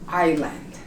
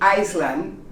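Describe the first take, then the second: First: The S is silent. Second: The S is sounded. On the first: The speaker calls it right. "You don't pronounce the S in island" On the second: The speaker calls it wrong. "You don't say Iceland"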